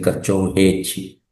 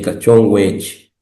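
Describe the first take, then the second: First: The second word starts with an h-like sound. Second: The second word starts with a w sound. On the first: "de la W se sustituye por J" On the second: "algunos no lo cambian"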